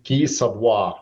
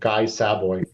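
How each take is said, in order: First: The name is said with a French accent. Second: The name is said with an American accent.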